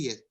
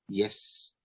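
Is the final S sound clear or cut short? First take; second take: cut short; clear. First: The final S sound is weak and cut short. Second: The final S sound is full and clear. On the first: The speaker calls it wrong. "We will miss out on the complete S sound" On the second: The speaker calls it right. "your main stress will be on the last S sound"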